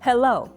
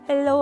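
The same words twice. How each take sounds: First: Each vowel gets a strong burst of breath. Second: The vowels run flat in one smooth breath. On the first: The speaker calls it right. "모음이 나올 때마다 호흡을 터뜨려 주시면 돼요" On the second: The speaker calls it wrong. "마치 우리말 하듯이 모음을 쭉 이렇게 한 호흡으로 가셨단 말이에요"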